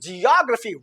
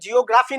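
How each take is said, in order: First: Second syllable stressed, the next vowel reduced. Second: The syllable after the second has a full vowel. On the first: The speaker calls it right. "इसके बाद reduce हो गया" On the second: The speaker calls it wrong. "ये geography नहीं है"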